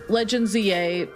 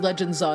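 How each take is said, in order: First: Z and A are said as separate letters. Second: Z A is blended into one syllable. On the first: "let me make sure I say this right" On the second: "I still think Legend Zaw is better"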